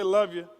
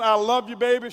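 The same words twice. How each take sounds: First: "Love you" clipped short and dropping low; curt send-off. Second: Loving send-off. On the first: Husband imitates wife's careless goodbye, mildly curt. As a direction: toss off "Love you" like an offhand habit. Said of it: "if she pronounces it wrong". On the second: Husband imitates wife's loving goodbye at the door, mildly warm. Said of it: "the tone of her voice as she says". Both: Retold or imitated.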